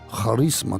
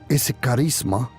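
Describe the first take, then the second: First: It is said with Greek pronunciation. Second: It is said with ordinary Spanish pronunciation.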